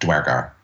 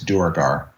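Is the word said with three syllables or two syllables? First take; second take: two; three. First: The word is said with two syllables. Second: The word is said with three syllables.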